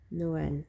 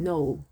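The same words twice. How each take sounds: First: "Noël" in two syllables, /noʊwɛl/, in French; French word. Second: "Noel" said the English way, /noʊl/, in one syllable; English name. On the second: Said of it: "an English name". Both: Shown as a demonstration.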